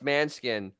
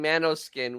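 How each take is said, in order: First: The name is said with two syllables. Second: The name is said with three syllables. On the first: The speaker calls it right. "it's Manskin" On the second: The speaker calls it wrong. "he was saying Manoskin, which he's a moron"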